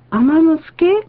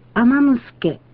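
First: The pitch rises on the last sound. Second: The pitch stays level or falls at the end. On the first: Does she cook the rice? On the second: She cooks the rice.

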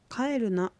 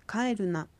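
Both takes have the same delivery.

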